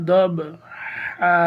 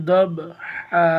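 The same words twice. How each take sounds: The two takes are said the same way.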